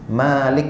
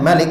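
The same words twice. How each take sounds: First: The first vowel is said long. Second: The first vowel is said short. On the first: It means owner, the one who possesses. "yang panjang" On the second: It means king, a more specific sense. "dengan pendek tanpa dipanjangkan"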